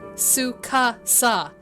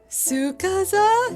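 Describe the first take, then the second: First: The name is said with an S sound. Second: The name is said with a Z sound. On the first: The speaker calls it right. "No Z, just S's" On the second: The speaker calls it wrong. "The Pennsylvanian in me wants to say a Z"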